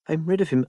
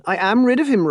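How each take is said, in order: First: Said in the usual way. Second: Much higher and louder, AM stressed in disbelief; joyful outburst. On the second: Acted. Marianne crying out to Rob that she is free, elated. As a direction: let the relief burst out, hitting AM. Marianne freed from unwanted suitor.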